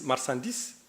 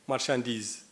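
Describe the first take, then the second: First: The middle consonant is a plain s sound. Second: The middle consonant is a sh sound. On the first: This is the form used in Hassaniya Arabic. "esa es la hassania" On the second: This is the original French form. "en francés"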